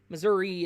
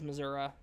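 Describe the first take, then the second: First: It is said with a northern pronunciation. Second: It is said with a southern pronunciation. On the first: Northerners say it this way. "Missouri is more of an us Northerners" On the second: An older relative says it this way. "my aunt still says Missouri ... it's more of a southern thing"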